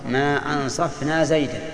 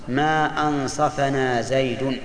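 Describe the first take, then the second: First: ما أنصفنا زيدا as "ansaf-na Zaydan"; Zayd as object. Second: Slow ما أنصفنا زيد, "ansafa-na Zaydun"; Zayd as subject. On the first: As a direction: close أنصفنا on f before "na", "-an" ending زيدا. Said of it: "وإن كان نحن الذين جرنا عليه". (ما أنصفنا زيدا بالنصب وسكون الفاء) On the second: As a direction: draw it out, short "a" after the ف in أنصفنا and "-un" ending زيد. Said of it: "إن كان زيد هو اللي جار علينا". (ما أنصفنا زيد بالرفع وفتح الفاء، ببطء) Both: Shown as a demonstration.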